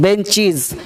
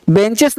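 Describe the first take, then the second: First: "बेंचीज" with long ee and final z; correct -IZ ending. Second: "बेंचेस" with short e and final s; wrong -ES ending. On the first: Teacher correcting the class, "बेंचीज" with z. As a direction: say "बेंचीज" ending -cheez, falling. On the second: Teacher rejecting a misreading, "बेंचेस" with s. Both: Shown as a demonstration. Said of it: "बेंचेस नहीं".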